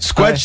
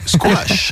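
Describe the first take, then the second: First: It sounds blunt, like something being crushed. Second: It sounds refined and upper-class. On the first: It evokes something getting squashed. "ça fait un truc qui vient de s'écraser" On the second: It evokes a genteel sport played over tea. "t'es tranquillement en train de boire un thé"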